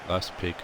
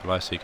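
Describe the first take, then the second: First: The P sound is pronounced in the word. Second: The P sound is left out of the word.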